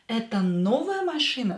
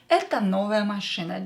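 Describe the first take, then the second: First: It has the intonation of a question. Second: It has the intonation of a statement. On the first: It asks whether this is a new car. "Is this a new car?" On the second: It states that this is a new car. "This is just a statement"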